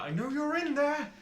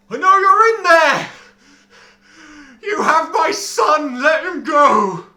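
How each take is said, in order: First: Raised, angry call at the gate; furious yell. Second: Full-force, slow, desperate roar; furious shout. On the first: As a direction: yell it, furious but held back. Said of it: "he seems furious". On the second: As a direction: bellow it at the locked gate. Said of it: "shakes them and goes". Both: Acted.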